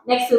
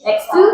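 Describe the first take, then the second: First: "Next to." said with a falling, confirming tune; settled statement. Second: "Next to?" asked with a high rising tune; questioning rise. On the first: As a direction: land "Next to." down flat and final. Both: Shown as a demonstration. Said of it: "Next to the kite".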